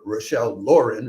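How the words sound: The name is pronounced in an American way.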